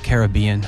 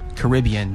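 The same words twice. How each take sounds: First: The stress falls on the third syllable. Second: The stress falls on the second syllable. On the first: The speaker calls it wrong. "not Caribbean" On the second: The speaker calls it right. "it's pronounced Caribbean"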